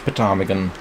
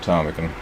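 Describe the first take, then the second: First: The word starts with a sounded P. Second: The word starts without a P sound. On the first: The speaker calls it wrong. "It's not pronounced ptarmigan" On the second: The speaker calls it right. "that is how you pronounce it, even though it has a P at the front"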